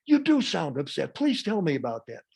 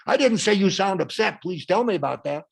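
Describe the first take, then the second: First: Energetic but not angry acknowledgement; match their energy, keep the tone kind. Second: Loud, heated mock reply; matched angry tone. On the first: Answering an angry critical parent, energetic nurturing reply. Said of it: "I match their energy". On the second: Wrong way to answer an angry person, loud and heated. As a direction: throw their tone of voice back. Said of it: "not their tone of voice". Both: Shown as a demonstration.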